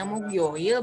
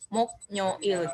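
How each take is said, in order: First: The k links into yo without an extra sound. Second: An extra n sound is added before yo. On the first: The speaker calls it right. "bacanya mukyoil" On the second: The speaker calls it wrong. "bukan muknyoil"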